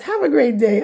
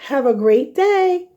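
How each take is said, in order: First: It sounds plain and natural, not put on. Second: It sounds cheesy, like a kids' show host.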